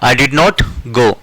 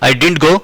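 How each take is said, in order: First: 'Did not' is said as two full words. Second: 'Did not' is contracted to one syllable group. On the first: "डिड नॉट को बोलेंगे" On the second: "डिड नॉट को हम short form में कहते हैं डिडंट"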